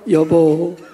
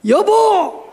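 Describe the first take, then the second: First: The pitch falls at the end. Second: The pitch rises at the end. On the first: The speaker calls it right. "내리세요" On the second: The speaker calls it wrong. "올려야 돼요?"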